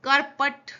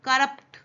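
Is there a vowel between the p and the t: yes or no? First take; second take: yes; no. First: A full vowel is sounded between p and t. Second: The p runs straight into the t. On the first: The speaker calls it wrong. "उसको देखो करपट" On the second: The speaker calls it right. "अपने प आधा है तो करप्ट"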